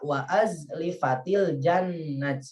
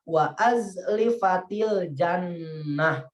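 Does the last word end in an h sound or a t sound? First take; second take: t sound; h sound. First: The last word ends in a t sound. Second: The last word ends in an h sound. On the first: The speaker calls it wrong. "Jangan membaca" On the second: The speaker calls it right. "maka dibaca"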